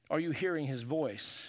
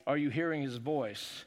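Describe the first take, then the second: No difference in how they are said.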